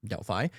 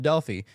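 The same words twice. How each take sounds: First: Delphi as a soft, low DEL-fye; Delphi ending in "fye". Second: Delphi with a long ee at the end; Delphi ending in "fee". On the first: Host trying the other pronunciation, Delphi as DEL-fye. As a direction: say Delphi with "eye" at the end. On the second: Host naming the oracle, Delphi as DEL-fee. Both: Shown as a demonstration. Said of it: "is it Delphi or Delphi".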